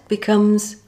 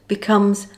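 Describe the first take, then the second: The two takes are said the same way.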